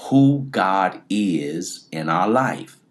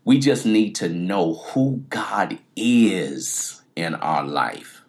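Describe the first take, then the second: First: "Who" leaned on, each word slowed and weighted; slow emphatic repeat. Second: Said in the usual way. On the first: Shown as a demonstration. Preacher repeating the key line to the congregation, slow and emphatic. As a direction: land "Who God is in our life" slowly, hitting "Who". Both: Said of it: "I'm gonna say that again".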